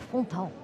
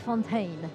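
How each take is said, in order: First: The last syllable sounds like nasal 'tahn'. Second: The last syllable sounds like 'tain'. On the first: The speaker calls it right. "He's a Fontan" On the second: The speaker calls it wrong. "not a Fontaine"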